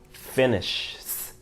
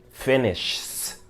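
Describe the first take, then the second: The two takes are said the same way.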